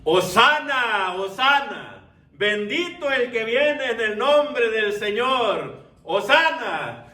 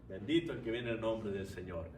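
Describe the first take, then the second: First: Loud, high, drawn-out acclamation; crowd shouting hosanna. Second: Low, very soft echo of the acclamation; hushed repeat. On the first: Preacher voices the crowd at the triumphal entry, shouting. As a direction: shout it slowly like a jubilant multitude. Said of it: "gritando y diciendo". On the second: Preacher repeats the crowd's blessing to the congregation, quietly. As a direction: say it quietly, well under the usual voice. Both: Retold or imitated.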